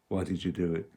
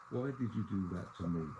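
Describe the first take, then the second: First: A low, gentle question; quiet and gentle. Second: Soft, quiet question, no accusation; asked quietly. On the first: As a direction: ask it gently, like a friend. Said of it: "So ask quietly, gently". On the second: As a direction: ask it quietly, without a scene. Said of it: "I stress quietly". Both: Shown as a demonstration.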